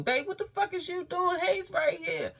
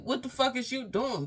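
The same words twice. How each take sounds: First: Far higher, louder shriek imitating the sister; frantic imitated shriek from the hallway. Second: High, louder imitated yell of the sister; high mock shout through a door. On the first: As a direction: screech it like she's panicking outside the door. Sister knocking at the door. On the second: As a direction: call through the door demanding answers.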